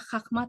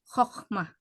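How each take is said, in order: First: The first vowel sounds like 'a'. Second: The first vowel sounds like 'o'. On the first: The speaker calls it wrong. "jangan dibaca Khakmah" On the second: The speaker calls it right. "tetapi Khokhmah"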